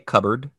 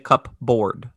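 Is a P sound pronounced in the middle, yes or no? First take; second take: no; yes. First: The word is said with no P sound, going straight to B. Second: The word is said with a clear P sound before B. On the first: "I just skip straight to the B sound" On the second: "I do not say cupboard"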